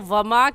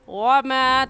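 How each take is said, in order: First: The w is said with unrounded lips. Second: The w is said with rounded lips. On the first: The speaker calls it wrong. "वमा कहना गलत है" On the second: The speaker calls it right. "होंठों को गोल करके पढ़ेंगे"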